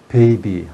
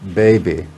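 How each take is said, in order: First: The B sounds are voiceless, Korean style. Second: The B sounds are fully voiced. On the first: The speaker calls it wrong. "그 한국식의 발음인데" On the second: The speaker calls it right. "유성표를 하나 붙여서"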